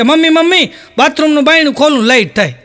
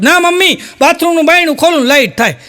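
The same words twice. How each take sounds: First: Höher, kindlich bettelnd, leicht gespielt; small child voice. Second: Höher, quengelnd beharrend; a little boy insisting he is right; insistent small child. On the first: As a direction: play a little boy tugging at mum. Small boy calls his mother. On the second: Boy insists to his mother. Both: Retold or imitated.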